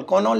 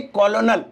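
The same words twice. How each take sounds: First: कॉनोल said as "ko-nol", the wrong way; wrong spelling-pronunciation. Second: कॉलोनल said as "ko-lo-nal", each syllable spelled out; correct spelling-pronunciation. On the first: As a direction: say कॉनोल as "ko-nol", both o sounds clear. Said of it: "कॉनोल नहीं". (कॉनोल को "को-नोल" की तरह गलत उच्चारण) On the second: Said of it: "कॉनोल नहीं, कॉलोनल". (कॉलोनल को "को-लो-नल" की तरह अक्षर-अक्षर बोलना) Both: Shown as a demonstration.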